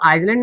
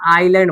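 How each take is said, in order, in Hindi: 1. बीच में s की ध्वनि सुनाई देती है। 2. बीच में s की कोई ध्वनि सुनाई नहीं देती। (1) "आइसलैंड नहीं बोलेंगे" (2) "आइलैंड बोलेंगे"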